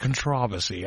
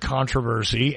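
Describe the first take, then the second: First: The word is said the British way. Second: The word is said the American way. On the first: "English person from the UK would say controversy" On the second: "Americans would say controversy"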